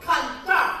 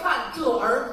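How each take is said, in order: First: The er sound merges into the word, Beijing style. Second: The er is said as a separate full syllable.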